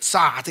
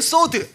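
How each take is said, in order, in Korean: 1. 모음은 열린 'ah' 소리예요. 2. 모음은 둥근 'oh' 소리예요. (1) "미국식 라피들이 사드 이렇게 말하거든요" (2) "히브리식 발음은 소드"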